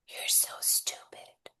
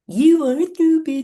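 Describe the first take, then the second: First: It is said in a plain, normal voice. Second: It is said in a silly cartoon voice.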